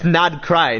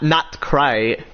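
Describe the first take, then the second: First: The first syllable ends with a d sound. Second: The first syllable ends with a t sound. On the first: The speaker calls it right. "it's Nodcry" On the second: The speaker calls it wrong. "not not cry"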